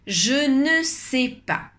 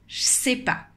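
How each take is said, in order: First: Every word is pronounced, including 'ne'. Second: The 'ne' is dropped; other words stay clear.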